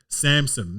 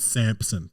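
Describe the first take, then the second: First: The name is said without a 'p' sound. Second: The name is said with a 'p' sound. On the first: The speaker calls it right. "Samson, not" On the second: The speaker calls it wrong. "not Samson. There's no P"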